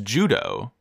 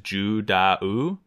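First: The name sounds just like the word judo. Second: The name has an extra vowel after the d. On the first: This is how the name is said in the show. The speaker calls it right. "if you listen to how they say it in the show, and even the katakana that his name is spelled in, it's Judo" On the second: This is how the written name seems to read. The speaker calls it wrong. "you would think Judao. Like, if you're going, like, purely Japanese"

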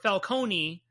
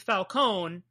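First: The name ends in a 'coney' sound. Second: The name ends in a plain 'cone' sound. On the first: "but it could be Coney. Like baloney" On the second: "It looks like it should be Cone"

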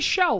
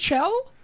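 First: The name begins with an 'sh' sound. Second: The name begins with a 'ch' sound.

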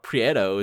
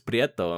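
First: The R is said without a roll. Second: The R is said with a roll. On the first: The speaker calls it wrong. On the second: The speaker calls it right.

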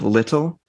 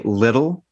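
First: The middle consonant sounds like a T. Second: The middle consonant sounds like a D. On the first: This is the standard form the speaker practices. "instead of little" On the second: This is the regional habit from where the speaker grew up. "our T's are D's. So I'll say little"

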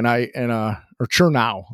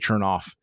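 First: The name ends with an open ow sound. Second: The name ends with an f sound. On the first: The speaker calls it right. "That's actually how you pronounce it" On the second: The speaker calls it wrong. "I always say Chernoff"

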